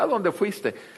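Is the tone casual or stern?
casual. It is asked in a casual, neutral tone.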